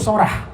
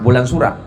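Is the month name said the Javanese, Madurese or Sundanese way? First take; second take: Madurese; Sundanese. First: It is said the Madurese way, as Sorah. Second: It is said the Sundanese way, as Sura.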